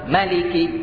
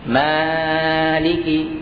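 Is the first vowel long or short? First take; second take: short; long. First: The vowel after the m is short. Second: The vowel after the m is long. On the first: "Yang kedua" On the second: "Yang pertama panjang, setelah mim ada matnya"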